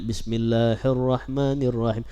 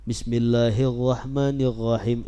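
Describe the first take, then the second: First: The r sound has a slight trill. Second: The r sound becomes a throaty 'gh'. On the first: The recitation is still acceptable. The speaker calls it right. "Masih ada getar sedikit" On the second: The prayer becomes invalid. The speaker calls it wrong. "jadi gha jadinya gha"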